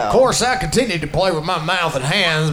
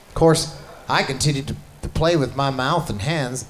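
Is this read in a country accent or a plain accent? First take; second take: country; plain. First: It is read in a put-on country accent. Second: It is read in the speaker's ordinary accent.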